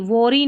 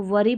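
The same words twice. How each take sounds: First: "worry" with an o, wo-ree; wrong pronunciation. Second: "वरी" with a short uh, vuh-ree; correct pronunciation. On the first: Teacher shows the misreading, "worry" as wo-ree. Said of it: "worry नहीं पढ़ना है". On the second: Teacher corrects learners, "वरी" as vuh-ree. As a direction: say "वरी" without an o sound. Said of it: "वरी पढ़ना है". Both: Shown as a demonstration.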